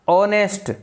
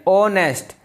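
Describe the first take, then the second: The two takes are said the same way.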